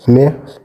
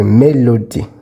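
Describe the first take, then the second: First: Mélodie whispered, high and unvoiced, with a rising end. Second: Said in the usual way. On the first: Shown as a demonstration. Teacher whispering a French word to the class. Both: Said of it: "Let's come to mélodie".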